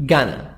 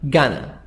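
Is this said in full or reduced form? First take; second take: reduced; reduced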